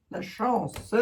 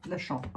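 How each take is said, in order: First: "la chance" said again with every sound crisp; "la chance" said over, cleanly; clearly articulated. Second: Said in the usual way. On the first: Shown as a demonstration. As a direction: carefully pronounce "la chance", each syllable distinct. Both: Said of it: "articule, bon sang".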